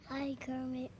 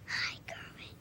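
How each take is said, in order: First: It is said at moderate volume. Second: It is said very softly.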